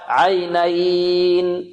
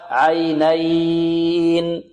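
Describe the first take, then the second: First: The vowel is held for four counts. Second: The vowel is held for six counts. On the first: "أربع حركات" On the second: "ست حركات"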